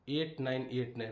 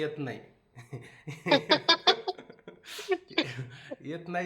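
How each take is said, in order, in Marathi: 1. अंक स्पष्ट आणि नेहमीसारखा उच्चारला आहे. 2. अंक लहान मुलासारख्या बोबडेपणाने उच्चारला आहे. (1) "त्या अंकाला इंग्लिशमध्ये काय म्हणणार?" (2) "पण ते होते जरा बोबडे"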